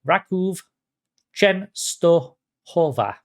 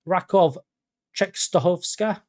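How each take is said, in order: First: The second name ends with a plain 'wa' syllable. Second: The second name ends with an extra 'ska' syllable. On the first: The speaker calls it right. "We're going to try that again" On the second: The speaker calls it wrong. "No, that's the wrong pronunciation"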